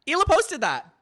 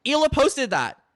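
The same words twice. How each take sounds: First: "posted" punched loud and high, falling; stress on posted. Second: "Hila" punched loud and high, fall after; stress on Hila. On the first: Repeating the exposure to co-hosts, "posted" shouted. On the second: Exposing the wife's post to co-hosts, "Hila" shouted. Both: Acted.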